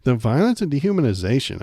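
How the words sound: It is read in a mocking put-on voice.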